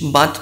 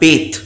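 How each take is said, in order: First: The vowel is a short 'a' sound. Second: The vowel is a long 'ay' sound. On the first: The speaker calls it wrong. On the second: The speaker calls it right.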